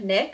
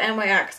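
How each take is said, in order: First: It is said as one word, like Nick. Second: It is said as three separate letters. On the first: "I don't know if it's like Nick" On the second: "I always call it NYX because they're capitalized"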